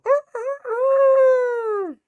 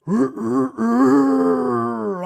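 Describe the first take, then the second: First: Loud, very high imitated rooster crow; high-pitched cock-a-doodle mimicry. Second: Loud, throaty imitated crow pitched under a normal rooster's; long, loud, ominous rooster call; deep rooster crow. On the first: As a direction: crow like a rooster, last note long and loud. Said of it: "like, a rooster crow". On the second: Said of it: "dark rooster crow".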